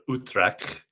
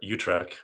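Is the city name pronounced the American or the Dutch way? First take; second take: Dutch; American. First: The name is said with a Dutch pronunciation. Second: The name is said with an American pronunciation.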